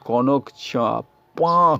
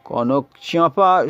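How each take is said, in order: First: The last word is broken with a doubled p. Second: The last word is said smoothly as one word. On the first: "কনক চাঁপ পা করে ফেলেছি" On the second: "কনক চাঁপা শব্দটাতে"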